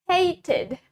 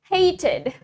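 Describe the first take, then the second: First: It is said in a British accent. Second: It is said in a British accent.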